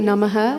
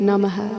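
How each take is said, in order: The two takes are said the same way.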